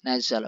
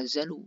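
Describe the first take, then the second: First: The word ends with an a vowel. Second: The word ends with a u vowel. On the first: The speaker calls it right. "nazala bukan nazalu" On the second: The speaker calls it wrong. "bukan nazalu"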